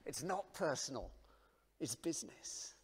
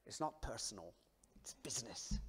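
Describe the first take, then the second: First: Quoted in a whisper. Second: Mob boss line. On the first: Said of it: "I thought, "No". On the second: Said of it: "I nearly tried the accent". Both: Retold or imitated.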